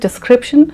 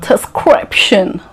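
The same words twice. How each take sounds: First: It is said with a plain, neutral pronunciation. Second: It is said with an exaggerated, put-on foreign accent. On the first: The speaker calls it right. "The correct pronunciation is description" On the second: The speaker calls it wrong. "You don't have to say description. Again, it looks fake"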